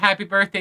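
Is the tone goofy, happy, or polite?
polite. It is said in a polite way.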